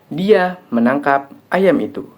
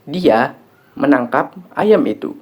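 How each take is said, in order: First: The stress falls on the word ayam. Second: The stress falls on the word menangkap. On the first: What was caught was a chicken, not another animal. "Yang ditangkap adalah ayam, bukan kambing dan binatang lain" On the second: The action was catching, not slaughtering or anything else. "Yang dilakukan adalah menangkap, bukan menyembelih"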